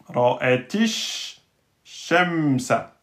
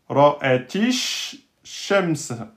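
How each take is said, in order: No difference in how they are said.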